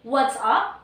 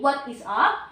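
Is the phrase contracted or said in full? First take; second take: contracted; full. First: The words are contracted into a short form. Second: Every word is said fully and separately. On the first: It is casual everyday talk. "We usually say" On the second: It is the fuller, less casual form. "Instead of saying"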